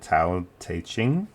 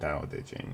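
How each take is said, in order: First: It starts with a T sound. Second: It starts with a D sound. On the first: This is one common way people say it. "Some people say Tao" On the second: This is the alternative way to say it. "I'm going to go with the alternative pronunciation"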